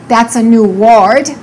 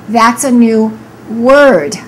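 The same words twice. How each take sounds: First: The vowel in word sounds like a full O. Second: The vowel in word is a reduced er sound. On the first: The speaker calls it wrong. "Don't say" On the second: The speaker calls it right. "We say"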